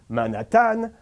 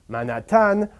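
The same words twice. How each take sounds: First: The stress falls on the last syllable. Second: The same.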